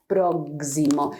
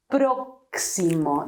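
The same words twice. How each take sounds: First: Próximo slowly, x as a voiced gz; próximo with an English gz. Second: Próximo slowly, x as an unvoiced ks; crisp ks in próximo; Spanish x, slow. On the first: Teacher showing the wrong próximo. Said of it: "not próximo". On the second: Teacher modelling the correct próximo. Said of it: "you have to say". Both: Shown as a demonstration.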